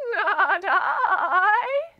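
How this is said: It is said in a shaky voice.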